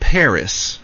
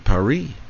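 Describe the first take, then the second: First: Paris is said with an American English pronunciation. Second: Paris is said with a French pronunciation. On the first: The speaker calls it wrong. "We in the United States talk about Paris" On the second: The speaker calls it right. "They say Paris"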